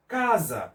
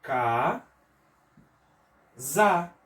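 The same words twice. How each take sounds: First: Said in the usual way. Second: CA... ZA, each syllable held apart. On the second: Shown as a demonstration. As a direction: split "Ca-, za" with a long pause. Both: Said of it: "a mesma coisa".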